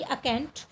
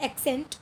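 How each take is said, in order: First: अकेंट said as a-kent, starting on a short a; the fixed version, अकेंट with a clipped a- at the front; corrected pronunciation. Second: एक्सेंट said as ek-sent, with a clear e at the start; the wrong first try, एक्सेंट with an open ek- sound; mispronounced slip. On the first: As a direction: settle on अकेंट, a-kent, after the slip. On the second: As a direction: slip into saying एक्सेंट as eksent before correcting. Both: Real, not acted. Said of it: "sorry एक्सेंट नहीं".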